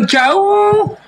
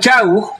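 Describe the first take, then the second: First: The word is said with strong, drawn-out emphasis. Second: The word is said plainly, without emphasis.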